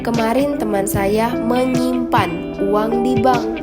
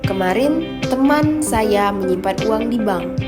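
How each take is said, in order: First: The stress falls on the word menyimpan. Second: The stress falls on the word teman. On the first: The money was deposited, not exchanged. "Menyimpan, bukan menukar" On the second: It was a friend, not a relative. "Teman, bukan saudara"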